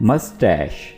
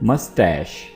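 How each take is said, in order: First: The word ends with a sh sound. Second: The word ends with a sh sound.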